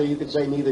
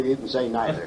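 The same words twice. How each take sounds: First: "neither" said as NEE-ther; "neither" with ee, the first way. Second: "neither" said as NIGH-ther with a light laugh; "neither" with eye, amused. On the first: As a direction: say "neither" with a long ee. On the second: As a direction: say "neither" with an eye sound, chuckling. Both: Shown as a demonstration. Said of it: "I don't care how it's pronounced".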